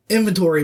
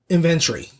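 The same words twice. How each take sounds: First: Said in the usual way. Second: "inventory" as "in-VEN-tree"; British pronunciation. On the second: Retold or imitated. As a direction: stress the second syllable of "inventory" and swallow the O. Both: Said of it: "inventory becomes inventory".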